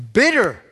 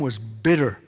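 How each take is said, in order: First: "Bitter!" higher and louder, hammered; emphatic repeat. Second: Said in the usual way. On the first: Shown as a demonstration. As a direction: punch "Bitter!" high and loud.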